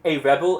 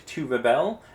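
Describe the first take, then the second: First: Rebel stressed on the first syllable, REB-el; noun stress. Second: Rebel stressed on the second syllable, re-BEL; verb stress. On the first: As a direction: hit the start of rebel, as the noun. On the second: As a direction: hit the end of rebel, as the verb. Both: Shown as a demonstration. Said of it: "we pronounce those slightly differently".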